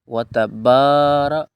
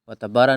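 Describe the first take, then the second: First: The vowel after 'b' is drawn out long. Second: The vowel after 'b' is short. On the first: The speaker calls it right. "बा को थोड़ा सा लांग करेंगे" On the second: The speaker calls it wrong. "व तबारा नहीं"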